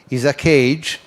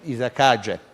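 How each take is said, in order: First: It is read as English words, 'is a cage'. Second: It is read as one word with Italian sounds.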